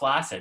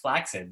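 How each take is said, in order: First: The middle consonant is a plain s sound. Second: The middle consonants are a ks sound. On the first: The speaker calls it wrong. "It's not flaccid" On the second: The speaker calls it right. "it's flaccid. There's two C's"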